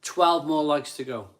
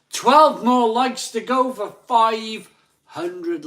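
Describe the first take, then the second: First: Said in the usual way. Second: High, loud, drawn-out hype; big slow countdown call; rallying announcer shout. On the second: Real, not acted. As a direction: stretch it out loud to rally the crowd. Hyping viewers towards like target.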